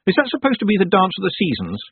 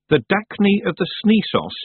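First: Said in the usual way. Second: Reading a garbled title, letters swapped; misread title. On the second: Acted. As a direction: say "The Dacne of the Sneesos" with the letters swapped, as printed.

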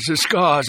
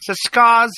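First: Higher, measured lordly voice; cool aristocrat. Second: Very high, louder nervous doctor. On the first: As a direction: recall it with cool annoyance. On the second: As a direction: blurt it out anxiously. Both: A narrator's reading.

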